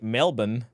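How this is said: It is said in an Australian accent.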